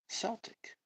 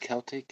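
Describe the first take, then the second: First: The word begins with an S sound. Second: The word begins with a K sound. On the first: "C if it's Celtic" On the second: "Put K if it's Celtic"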